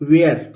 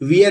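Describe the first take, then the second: First: The vowel sounds like 'ai' as in 'air'. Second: The vowel sounds like 'ee' as in 'beer'. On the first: The speaker calls it right. "इसको पढ़ते हैं वेयर" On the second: The speaker calls it wrong. "इसको पढ़ेंगे वियर नहीं पढ़ते हैं"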